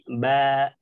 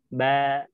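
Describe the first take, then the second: No difference in how they are said.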